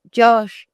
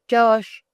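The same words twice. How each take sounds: First: Loud call, pitched higher, to the man downstairs; first, loudest call for the husband. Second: Second call, still high but a little less loud; calling again. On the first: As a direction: shout his name up high and loud. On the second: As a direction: call his name once more, slightly eased off. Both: A narrator's reading. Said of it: "called the woman".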